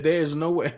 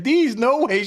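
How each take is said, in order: First: Said in the usual way. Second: "These no way" with no R, higher and louder, mocking; mock "These no way", dropping the R in there's; mispronounced there's. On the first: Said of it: "she couldn't even say it all the way". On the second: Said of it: "She didn't even get the R in there".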